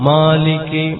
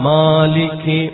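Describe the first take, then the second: No difference in how they are said.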